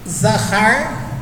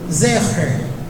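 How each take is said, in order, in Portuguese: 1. Ambas as vogais são sons de 'a' abertos. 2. Ambas as vogais são sons de 'e'. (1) "da forma que Joab leu" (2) "da forma que Davi leu"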